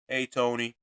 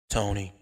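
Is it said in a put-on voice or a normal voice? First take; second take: normal voice; put-on voice. First: It is said in his normal voice. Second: It is said in a put-on voice.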